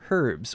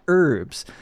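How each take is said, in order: First: The word is said in a British way. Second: The word is said in an American way.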